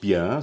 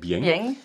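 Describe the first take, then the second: First: Standard French, ending in a plain nasal vowel. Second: Provençal accent, ending with an audible ng sound. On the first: "nicht Bien" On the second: "sondern Bieng"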